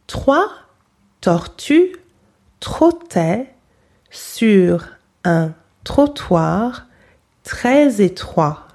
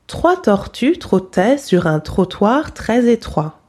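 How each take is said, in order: First: It is said slowly. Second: It is said at normal speed.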